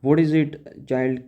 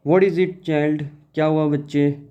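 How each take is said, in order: First: Slow, deliberate English reading; teacher rereading the line slowly; slow read-aloud. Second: Teacher voicing a mother asking her child; lightly voiced mother. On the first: Shown as a demonstration. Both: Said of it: "she asked".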